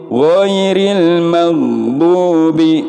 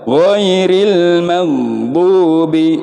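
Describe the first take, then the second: No difference in how they are said.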